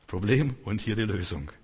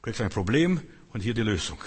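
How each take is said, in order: First: Said in the usual way. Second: Slow, deliberate explaining. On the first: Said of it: "Du kriegst ein Problem und hier die Lösung". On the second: Shown as a demonstration.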